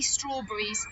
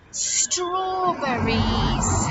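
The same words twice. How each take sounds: First: Said in the usual way. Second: "Strawberries" very slow and loud, each syllable drawn out; "Strawberries" with long S and long syllables; stretched-out word. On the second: Shown as a demonstration. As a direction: stretch "Strawberries" out for children to copy. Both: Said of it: "let's say strawberries".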